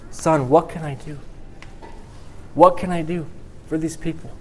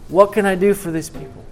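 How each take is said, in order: First: A touch of weeping in a father's plea; tearful father. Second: Higher, aching cry of a weeping father; father near sobbing, asking what he can do; tearful father. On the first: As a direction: voice lifting and catching, close to tears. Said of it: "you got tears coming down his face". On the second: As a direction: let the plea break upward as tears come. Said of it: "and tears are coming down his face". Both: Acted.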